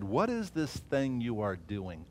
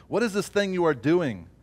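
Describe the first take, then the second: First: Slow, soft sneering question; the enemy quietly scoffing at the builders; mild quiet mockery. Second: Louder, challenging sneer; open mockery. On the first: Slow, hushed scoff from the mockers at the wall builders. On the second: The mockers openly jeering at the wall builders, louder. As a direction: throw the taunt at them. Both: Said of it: "they mocked us and despised us".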